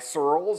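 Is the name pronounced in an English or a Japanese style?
English. The name is said the English way.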